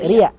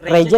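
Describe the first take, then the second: First: The middle consonant is a 'y' sound. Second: The middle consonant is a 'j' sound. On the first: The name as people from Tarim say it. "Jadi Reja jadi Ria" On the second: The speaker's own name as normally said. "Nah, di Tarim itu Jim itu jadi ya"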